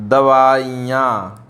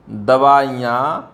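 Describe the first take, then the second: First: दवाइयाँ said very slowly and firmly; correction, slow. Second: दवाइयाँ drawn out as the error; wrong form, slow. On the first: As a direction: stretch each syllable of दवाइयाँ. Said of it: "दवाइयाँ होता है". (सही दवाइयाँ धीरे-धीरे) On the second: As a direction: hold दवाइयाँ slowly to show the mistake. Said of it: "दवाइयाँ नहीं होता है". (गलत दवाइयाँ धीरे से) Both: Shown as a demonstration.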